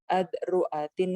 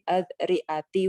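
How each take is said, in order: First: The word ends in an i vowel plus n. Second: The word ends in a bare i vowel. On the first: "bikasrita ma'at tanwin" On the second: "bikasriha ma'adami tanwin"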